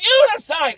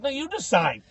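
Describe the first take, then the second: First: Very high, loud mock shout; heated retort. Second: Higher-pitched comeback at normal volume; insistent retort. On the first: Visitor arguing back at clown guide, heated retort. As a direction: yell it right back. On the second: Retold or imitated. Visitor to clown guide, insistent retort. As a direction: toss the choice back. First round of bickering with clown.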